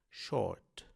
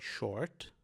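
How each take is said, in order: First: It is said with a British accent, R silent. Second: It is said with an American accent, R pronounced. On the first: "e em inglês britânico apenas o O" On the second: "em inglês americano se pronuncia como em short"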